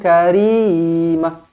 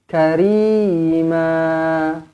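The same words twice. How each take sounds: First: The final vowel is cut short and stopped. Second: The final vowel is held for two beats. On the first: The speaker calls it wrong. "Jangan karimah. ... jangan berhenti macam tu" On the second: The speaker calls it right. "baca cantik-cantik dua harakat dekat sini"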